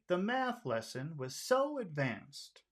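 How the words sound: It is said with high-low pitch, friendly. "let's try friendly. High low"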